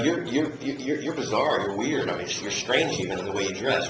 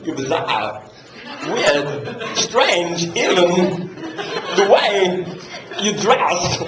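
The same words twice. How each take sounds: First: Said in the usual way. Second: "weird", "strange", "even" each set apart by long pauses, laughing through; long pauses between words. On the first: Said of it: "the way that I said it the first time". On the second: Retold or imitated. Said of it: "And he goes".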